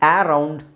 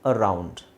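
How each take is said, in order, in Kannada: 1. ಮೊದಲ ಸ್ವರ ಉದ್ದ 'aa'. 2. ಮೊದಲ ಸ್ವರ ಸಣ್ಣದು, ಲಘು 'uh'. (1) "ಆ ರೌಂಡ್ ಅಲ್ಲ"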